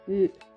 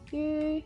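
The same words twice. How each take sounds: First: The pitch falls throughout. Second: The pitch stays level throughout. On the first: It means meat. "And the last one we use fall tone and it means meat" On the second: It means stupid. "The first one we use level tone and it means stupid"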